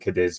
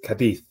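First: The name is said the English way. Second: The name is said the Spanish way. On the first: "for sake of ease, is fine with me" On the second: "I think if you're Spanish, that's how you pronounce it"

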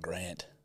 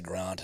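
First: Grant is said with an American vowel. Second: Grant is said with a non-American vowel. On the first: "That's Grant's very American" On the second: "how you say Grant"

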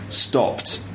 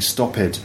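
First: The ending is a short t sound, one syllable. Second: The ending adds an extra ed syllable, two syllables. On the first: The speaker calls it right. "I would say stopped" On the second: The speaker calls it wrong. "you might find like a Brazilian or a Spanish person saying stop it"

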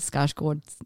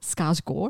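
First: The final D sound is pronounced. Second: The final D sound is silent. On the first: The speaker calls it wrong. "I did it again" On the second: The speaker calls it right. "Apparently you don't say the D on the end"

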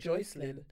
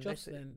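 First: The first syllable sounds like 'Joy'. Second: The first syllable sounds like 'Jaw'.

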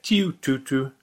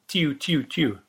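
First: The first note differs from the other two. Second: All three notes sound the same. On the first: It is a redshank's call. "the first note clearly sounds different to the other two" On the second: It is a greenshank's call. "all of the notes sound the same"

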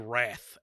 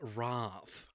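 First: The word is said with an American pronunciation. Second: The word is said with an upper-class British pronunciation. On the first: The speaker calls it right. "it's supposed to be Wrath" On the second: The speaker calls it wrong. "like a Brit, like an upper class Brit"

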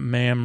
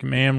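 First: The vowel sounds like the vowel in farm. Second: The vowel sounds like the vowel in ham. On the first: The speaker calls it wrong. "Not ma'am, farm" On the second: The speaker calls it right. "Ma'am rhymes with ham"

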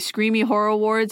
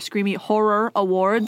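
First: The words run together and are unclearly articulated. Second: Each word is articulated slowly and distinctly. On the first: The speaker calls it wrong. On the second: The speaker calls it right.

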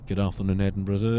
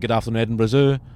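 First: The greeting sounds flat and worn out. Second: The greeting sounds bright and polite. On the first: He is fed up with the prank calls. "you'd hear it in his voice just getting less and less" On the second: He treats the caller as genuine. "as if it's somebody genuine"

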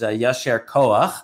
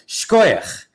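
First: It is said as two separate full words. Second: It is said as one short merged word. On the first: This is the original Hebrew form. "It's actually a Hebrew expression" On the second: This is the Yiddish everyday form. "combined into a single Yiddish word with this pronunciation"

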